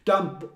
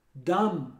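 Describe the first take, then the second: First: "Dumb" short, with a little b released; wrongly sounded B. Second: "Dumb" ending cleanly on m; correct silent B. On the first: Retold or imitated. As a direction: mimic students' "Dumb" with an audible final b. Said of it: "querem falar um pouquinho de B". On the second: Shown as a demonstration. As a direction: model "Dumb" without any b. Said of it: "Não tem B".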